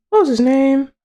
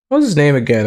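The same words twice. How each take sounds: First: High squeaky question; puzzled falsetto. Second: Said in the usual way. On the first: Pretend. Trying to remember the octopus's name, puzzled falsetto. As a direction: ask it up in falsetto.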